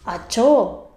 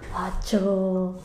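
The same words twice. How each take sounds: First: It sounds like calling for someone's attention. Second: It sounds like the speaker is surprised.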